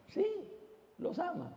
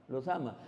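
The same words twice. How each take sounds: First: Lifted up high and light; "los ama" sung out high and soft; high bright answer. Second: Dropped low and quiet; "los ama" said low and soft; low soft answer. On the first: Repeats the answer, rising. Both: Shown as a demonstration.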